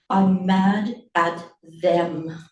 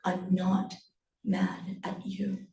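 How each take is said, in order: First: Slow, weighted declaration; firm, deliberate anger; simmering anger. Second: Soft, slow, breaking into near-whisper; quiet words with a pause after "not"; hushed reassurance. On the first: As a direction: stretch each word with controlled fury. Mother's anger turns on others. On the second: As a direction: murmur it slowly to reassure. Mother repeats softly, before angry turn. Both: Acted.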